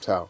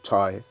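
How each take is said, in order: First: The name is said with an 'ow' vowel. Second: The name is said with an 'eye' vowel. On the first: The speaker calls it right. "sorry, I mispronounced his name, Tao" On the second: The speaker calls it wrong. "I mispronounced his name"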